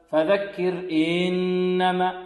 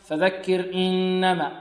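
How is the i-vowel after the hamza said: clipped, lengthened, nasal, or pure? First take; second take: lengthened; nasal. First: The i-vowel is stretched into a long 'ee'. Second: The i-vowel and hamza sound nasal. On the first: "فيحذر الطالب من إشباع الكسرة حتى يتولد منها ياء، فلا نقول" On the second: "أو تكون فيها الهمزة فيها شيء من الأنف"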